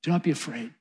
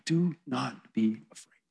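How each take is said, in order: First: Softly, in one connected phrase; quiet comfort at an easy, flowing pace; soft reassurance. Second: Measured, hushed comfort with each word set apart; gentle reassurance. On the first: Jesus repeating his comfort to John, soft reassurance. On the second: Jesus reaching down to fallen John, slow reassurance. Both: Acted. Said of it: "says to John".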